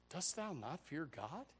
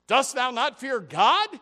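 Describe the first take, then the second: First: Soft, slow, earnest question; the penitent thief quietly rebuking his companion; hushed rebuke. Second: Much louder, higher and slow; preacher repeating the thief's rebuke at full force; thundering rebuke. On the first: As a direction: ask it quietly and gravely. Other thief's rebuke quoted. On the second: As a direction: boom the question out. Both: Acted.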